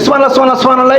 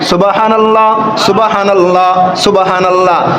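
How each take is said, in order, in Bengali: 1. বাক্যটি তাড়াহুড়ো করে বলা হয়েছে, শব্দগুলো একসাথে জড়িয়ে গেছে। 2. প্রতিটি শব্দ স্পষ্ট ও সাবধানে বলা হয়েছে। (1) "এইগুলো কি?" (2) "একদম সহি শুদ্ধ করে পড়বেন"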